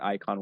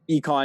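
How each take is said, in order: First: The name begins with an 'eye' vowel sound. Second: The name begins with an 'ee' vowel sound. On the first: This is the English way of saying it. "but icon works as well" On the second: This is the original Greek pronunciation. "econ is how it's supposed to be pronounced"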